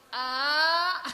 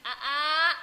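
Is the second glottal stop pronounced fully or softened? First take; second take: softened; fully. First: The second glottal stop is softened and blurred. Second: Both glottal stops are pronounced fully and sharply. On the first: The speaker calls it right. "A kayak orang manja" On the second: The speaker calls it wrong. "itu kan ribet ya"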